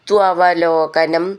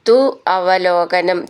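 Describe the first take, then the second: First: The two words are joined into one. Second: The two words are said separately.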